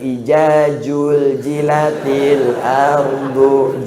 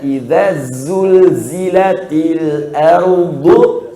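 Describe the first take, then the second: First: The consonants are said with a j sound. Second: The consonants are said with a z sound.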